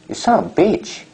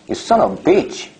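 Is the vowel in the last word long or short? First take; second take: long; long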